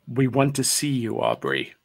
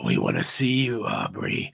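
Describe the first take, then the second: First: It is said in a normal voice. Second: It is said in a creepy, breathy voice.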